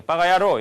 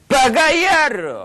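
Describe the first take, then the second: First: Said in the usual way. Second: Loud, high, long-drawn yell; full-on angry curse. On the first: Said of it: "이렇게 하면 안 돼요". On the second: Shown as a demonstration. Lecturer showing the right way to curse, enraged drawn-out yell. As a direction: roar it with total rage. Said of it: "얼굴 표정 이렇게 가야지".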